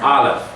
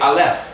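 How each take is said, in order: First: The stress is on the first syllable. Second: The stress is on the second syllable. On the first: The speaker calls it right. "you always lean on the first syllable" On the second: The speaker calls it wrong. "it would be wrong to say Aleph"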